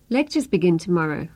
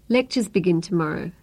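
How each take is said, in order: No difference in how they are said.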